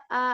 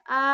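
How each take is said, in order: No difference in how they are said.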